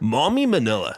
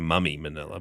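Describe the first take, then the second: First: The first word has the overseas 'mom' vowel. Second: The first word has the New Zealand 'mum' vowel. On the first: It is the form used overseas. "overseas it's M O M M Y" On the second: It is the New Zealand form of the word. "in New Zealand we say mummy"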